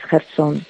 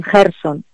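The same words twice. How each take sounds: First: Gerson stressed on the last syllable, gerSON; correct Kherson pronunciation. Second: Gerson stressed on the first syllable, GERson; mispronounced Kherson. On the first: Guest corrects the mistake, Gerson with final stress. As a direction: land the stress on the end of Gerson. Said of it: "pero pronunciado bien". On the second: Guest shows reporters' mistake, Gerson with first-syllable stress. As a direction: shift the stress to the start of Gerson. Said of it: "dicen Gerson". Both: Shown as a demonstration.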